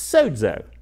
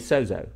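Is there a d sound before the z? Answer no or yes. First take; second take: yes; no. First: The z is said with a d sound before it. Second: The z is said without a d sound. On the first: This follows the official Greek pronunciation. "there's a little D in there, so it's sozo" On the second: This follows the transliterated spelling. "A lot of people say sozo"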